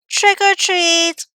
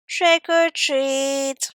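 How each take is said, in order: First: It is said more loudly. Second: It is said very softly.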